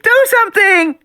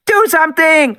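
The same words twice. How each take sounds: First: Even higher, louder desperate scream; girl screaming louder. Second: Put-on much higher, louder girl's scream; high loud terrified child's scream. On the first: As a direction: scream it again, more desperate. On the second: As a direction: scream in terror at Grant. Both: A narrator's reading. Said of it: "Alexis screamed".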